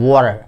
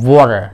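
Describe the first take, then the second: Both takes have the same delivery.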